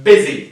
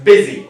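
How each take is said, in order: No difference in how they are said.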